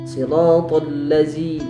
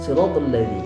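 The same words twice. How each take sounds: First: The consonant is a buzzing 'z' sound. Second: The consonant is a soft 'dh' sound. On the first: The speaker calls it wrong. "sering terjadi dibaca menjadi huruf zai" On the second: The speaker calls it right. "huruf zal"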